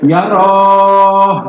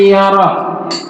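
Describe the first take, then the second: First: The final vowel is drawn out long. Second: The final vowel is cut off short. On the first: The speaker calls it wrong. "paling enak kalau ujung tuh panjang gitu kan" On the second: The speaker calls it right. "Ya putus"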